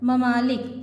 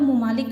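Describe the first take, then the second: First: ममालिक said mamalik with a short a at the start; ma-malik; correct pronunciation. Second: ममालिक said mumalik with a short u at the start; wrong pronunciation. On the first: Teacher giving students the correct mamalik. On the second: Teacher showing students the wrong mumalik. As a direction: show the mistake: mu-malik. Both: Shown as a demonstration. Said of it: "गलत तलफ़ुज़ है".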